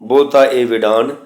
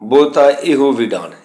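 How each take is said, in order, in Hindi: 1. बीच का शब्द अंत में o की आवाज़ के बिना खत्म होता है। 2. बीच का शब्द अंत में o की आवाज़ पर खत्म होता है। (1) "ਇਹ ही शुद्ध पाठ है।" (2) "ਇਹ गलत है।"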